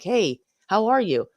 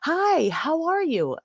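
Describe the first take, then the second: First: The greeting sounds genuine and sincere. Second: The greeting sounds fake and overly cheerful.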